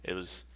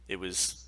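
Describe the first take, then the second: No difference in how they are said.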